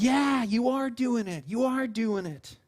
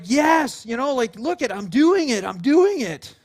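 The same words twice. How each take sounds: First: Slow, drawn-out parental encouragement; indulgent, slow praise; encouraging parent. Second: Put-on high, loud, proud little-kid cheer; excited crowing, punched louder; thrilled child. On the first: Retold or imitated. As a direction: cheer on a small child, stretching the words. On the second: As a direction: imitate a kid delighted with themselves. Voicing a child thrilled on bike.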